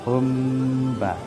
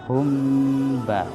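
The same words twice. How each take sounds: Both takes have the same delivery.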